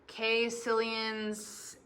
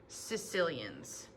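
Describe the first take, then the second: First: The first vowel is not an 'ee' sound. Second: The first vowel is an 'ee' sound. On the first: The speaker calls it wrong. "It is not caecilians" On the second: The speaker calls it right. "that A E makes just an E sound"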